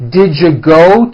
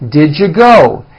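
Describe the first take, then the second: First: The words are blended into one reduced form. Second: The words are blended into one reduced form.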